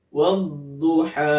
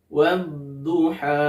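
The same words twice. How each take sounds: No difference in how they are said.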